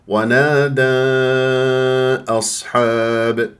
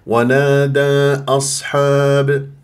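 First: The vowel before the glottal stop is drawn out. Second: The vowel before the glottal stop is held briefly. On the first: It follows another recognised reading tradition. "الشاطبية أربع خمس حركات" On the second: It follows one recognised reading tradition. "الطيبة حركتين"

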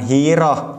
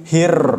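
First: A vowel sound is added after the r. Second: The r is held and trilled without a vowel. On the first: The speaker calls it wrong. "bukan hiroh" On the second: The speaker calls it right. "tapi hir"

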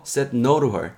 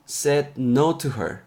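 First: The word 'to' starts with an n-like sound. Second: The word 'to' starts with a clear t sound. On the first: "약간 니을 사운드로도 발음이 날 수 있습니다. 단 빨리 됐을 경우에" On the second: "to로 t 사운드로도 티그 사운드로도 발음이 나고요"

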